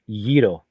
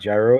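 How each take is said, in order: First: The word begins with a Y sound. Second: The word begins with a J sound. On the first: The speaker calls it right. "It's a Yito" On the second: The speaker calls it wrong. "It's not actually gyro"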